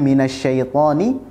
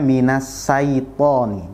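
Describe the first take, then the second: First: The middle consonant is an sh sound. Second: The middle consonant is a plain s sound. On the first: The speaker calls it right. "pastikan huruf shin juga dibaca dengan benar" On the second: The speaker calls it wrong. "jangan sampai dibaca"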